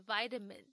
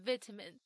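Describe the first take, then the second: First: American vitamin with a long eye sound; vitamin opening like the word "vie"; American pronunciation. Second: British vitamin with a short first i; vitamin opening like "vit" in "vitality"; British pronunciation. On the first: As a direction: say vitamin as VY-tamin. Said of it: "如果是学美式发音的话". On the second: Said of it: "他习惯英式发音". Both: Shown as a demonstration.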